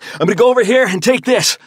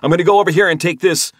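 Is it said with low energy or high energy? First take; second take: high energy; low energy. First: It is said forcefully, with lots of energy. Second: It is said flatly, with little energy.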